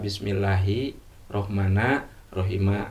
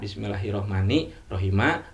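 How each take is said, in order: First: Both final words end in an a vowel. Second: The first ends in i, the second in a. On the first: "Bisa patah dua-duanya" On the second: "awal kasrah uh, ujung patah"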